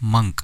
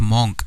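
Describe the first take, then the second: First: The vowel is a short 'uh' sound. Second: The vowel is an open 'aw' sound. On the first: The speaker calls it right. "It is मंक" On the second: The speaker calls it wrong. "It is not मॉन्क"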